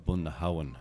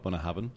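First: Bunnahabhain with a W glide, "boona-HOW-en"; Irish-language pronunciation. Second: Bunnahabhain with a V, "boona-HAVen"; common pronunciation. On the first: Guest shows his Irish-language way, Bunnahabhain as "bunna-HOW-en". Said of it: "that's the Irish language way". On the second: Guest shows the version he doesn't use, Bunnahabhain as "bunna-HAVen". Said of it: "I don't even s-, call it". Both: Shown as a demonstration.

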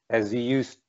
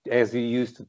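No difference in how they are said.

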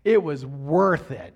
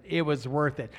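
First: "worth" leaned on, louder and slow; emphatic. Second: Said in the usual way. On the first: Acted. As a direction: land "it was worth it" slowly and with weight. Repeated for emphasis.

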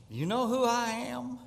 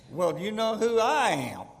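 First: High, drawn-up 'do you know who I am'; indignant old church lady, voice raised in pitch; haughty challenge. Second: Higher-pitched comeback, leaning on I; mock self-important retort, stressing I; turning the tables. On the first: Retold or imitated. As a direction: pull rank on the usher, pitched up high. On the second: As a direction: throw the question back at her, pitch swooping up on I. Usher turns the question back.

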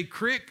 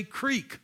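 First: "crick" with a short i; dialect pronunciation. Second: "creek" with a long ee; standard pronunciation. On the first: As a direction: say "crick" to rhyme with brick. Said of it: "some people say crick". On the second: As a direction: say "creek" to rhyme with week. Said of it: "some people say creek". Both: Shown as a demonstration.

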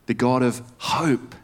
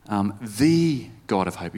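First: "hope" weighted at the end of "The God of hope"; slow delivery leaning on "hope"; stress on HOPE. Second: "the" leaned on, the rest of "the God of hope" kept light; falling tune after a weighted "the"; stress on THE. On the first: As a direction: land hard on "hope". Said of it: "again, if you change the emphasis". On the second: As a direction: hit the word "the" in "the God of hope". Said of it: "if you change the emphasis". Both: Shown as a demonstration.

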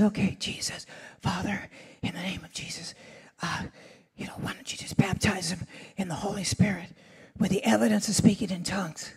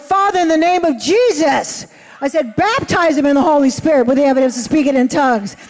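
First: Whispered prayer, barely voiced; hushed whisper. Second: Raised, commanding prayer voice; bold prayer. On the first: Nervous preacher praying over a doctor in a quiet church, whispering. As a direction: pray in a whisper so nobody hears. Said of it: "So I was really quiet". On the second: Retold or imitated. Preacher at the altar praying boldly over the doctor. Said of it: "my charismatic side came in to me".

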